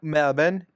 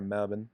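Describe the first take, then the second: First: The name is exaggerated in an Australian-style accent. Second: The name is said plainly in an American accent. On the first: The speaker calls it wrong. "I'm overpronouncing every Australian city name" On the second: The speaker calls it right. "I could just say Melbourne, right?"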